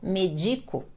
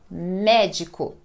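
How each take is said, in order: First: The stress falls after the first syllable. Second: The stress is on the first syllable. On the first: The speaker calls it wrong. "Senão, eu falaria" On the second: The speaker calls it right. "é o me que é o mais forte"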